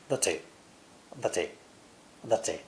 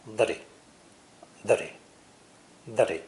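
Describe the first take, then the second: First: "The T" with a crisp British T. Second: American flap T. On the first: Teacher showing how British English says the T. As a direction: give the T a clean British release. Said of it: "British English will usually pronounce the T differently, like this". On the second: Teacher demonstrating the American flap T. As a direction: tap the T lightly like a D. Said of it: "my American flap T sound". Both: Shown as a demonstration.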